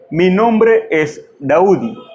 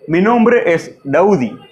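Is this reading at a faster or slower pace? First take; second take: slower; faster. First: It is read at a slower, careful pace. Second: It is read at a normal, faster pace. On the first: "más lento. A little bit slowly" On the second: "that is the first reading"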